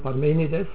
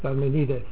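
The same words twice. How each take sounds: First: The stress follows the Latin rule used in German. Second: The stress falls where Greek speakers would put it. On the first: This is how German speakers say the name. "Also wir sagen Parmenides" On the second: This is how the man himself would have said it. "er selber würde wahrscheinlich behauptet haben, er heißt Parmenides"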